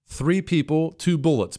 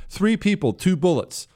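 First: Said in the usual way. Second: Repeated higher, with mocking emphasis; higher mock-outraged second reading. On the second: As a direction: hammer it home in a higher mocking voice. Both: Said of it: "and I quote".

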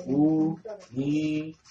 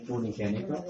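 First: "Unigénito" drawn out slowly, each syllable separate. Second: Said in the usual way. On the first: Shown as a demonstration. Preacher teaching the congregation a key word, syllable by syllable. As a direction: break "Unigénito" into long, spaced syllables.

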